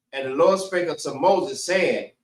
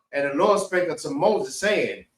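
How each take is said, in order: Both takes have the same delivery.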